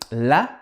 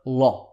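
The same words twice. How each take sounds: First: The l is light, with a flat mouth. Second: The l is heavy, with a full mouth. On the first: The speaker calls it wrong. "we don't say la" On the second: The speaker calls it right. "but la instead"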